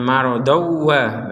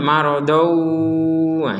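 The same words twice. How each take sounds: First: It is said quickly with no nasal hum. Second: The nasal hum is drawn out too long. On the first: "Kalau kecepatan marodawa berarti nggak ada dengung" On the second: "Kalau kelamaan marodawa ini tidak boleh berlebih-lebihan"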